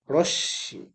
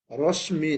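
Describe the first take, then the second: First: রশ্মি with a doubled শ and no ম sound; correct reading. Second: ম said fully in রশ্মি; রশ্মি with the ম sounded out; wrong reading. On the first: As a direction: say রশ্মি as rosh-shi, ম silent. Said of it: "তালবস স দুইটা হয়ে যাবে". (সঠিক উচ্চারণ, রশ্মি তে শ দুইবার) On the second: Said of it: "রশ্মি না". (ভুল উচ্চারণ, রশ্মি তে ম স্পষ্ট) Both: Shown as a demonstration.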